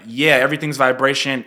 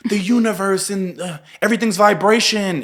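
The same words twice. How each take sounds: First: Said in the usual way. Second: Airy high new-age voice; spiritual person voice. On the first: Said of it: "And it's like". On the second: Retold or imitated. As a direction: mimic a dreamy spiritual type. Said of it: "there's people who are like".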